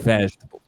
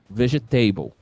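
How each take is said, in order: First: The stress falls on the first syllable. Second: The stress falls on a later syllable. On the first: The speaker calls it right. "Não, é vegetable" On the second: The speaker calls it wrong. "Aí o pessoal vai lá e mete um vegetable"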